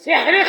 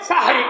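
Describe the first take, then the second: First: The first vowel sounds like 'e'. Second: The first vowel sounds like 'a'. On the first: It means eating magic. The speaker calls it wrong. "সেহরি খাওয়া মানে জাদু খাওয়া" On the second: It names the pre-dawn meal. The speaker calls it right. "শব্দটা হচ্ছে সাহরি"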